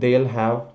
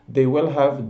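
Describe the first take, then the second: First: Pronoun and will merge into one syllable. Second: Every word is said in full.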